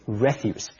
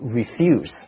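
First: The stress is on the first syllable. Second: The stress is on the second syllable. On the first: The speaker calls it right. "当名词要读 refuse" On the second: The speaker calls it wrong. "注意在这里的发音不能够读 refuse"

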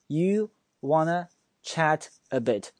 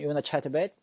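First: The sentence is said slowly and deliberately. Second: The sentence is said at natural conversational speed. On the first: "但是我们放慢语速" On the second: "他就发成"

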